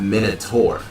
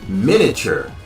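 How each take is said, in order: First: The word sounds like 'min-o-tor'. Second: The word sounds like 'min-ee-a-chur'. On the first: The speaker calls it wrong. "not minotaur" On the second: The speaker calls it right. "It is miniature"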